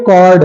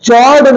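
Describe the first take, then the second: First: The word begins with a k sound. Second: The word begins with a ch sound. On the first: The speaker calls it right. "कॉर्ड है" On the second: The speaker calls it wrong. "चॉर्ड नहीं है"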